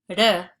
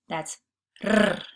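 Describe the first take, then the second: First: The R is a single quick tap. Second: The R is a long rolled trill. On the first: "that singular R" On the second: "that trill, double R"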